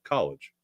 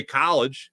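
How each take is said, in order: First: Said in the usual way. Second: College with a long drawn Philly vowel, said higher. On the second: Shown as a demonstration. Host showing how he says college with his Philly accent, drawn out. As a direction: stretch the first syllable of college the Philly way. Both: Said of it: "I'll say college instead of".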